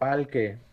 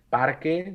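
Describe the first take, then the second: First: The R sound is replaced by an L sound. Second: The word is said with an R sound. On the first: "no palque" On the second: "cuando le pides que diga parque"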